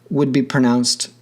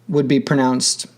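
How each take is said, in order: No difference in how they are said.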